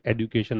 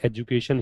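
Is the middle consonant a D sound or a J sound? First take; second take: D sound; J sound. First: The middle consonant is a D sound. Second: The middle consonant is a J sound. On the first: The speaker calls it wrong. "एडुकेशन नहीं होता" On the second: The speaker calls it right. "तो ये एजुकेशन ही है"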